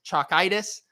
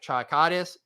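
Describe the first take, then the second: First: "chokitis" with a long "eye" in the middle, chok-EYE-tis; corrected pronunciation. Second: "chokitis" with an "ah" in the middle, chok-AH-tis; first attempt at pronunciation. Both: Real, not acted. Self-corrects an invented word.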